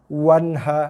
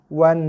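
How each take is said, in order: First: The final n is hardened with an extra release. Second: The final n is clear and moderate, not hardened. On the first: The speaker calls it wrong. "bila kita keraskan dia akan menghasilkan bunyi wanha" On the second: The speaker calls it right. "Baca dengan wan"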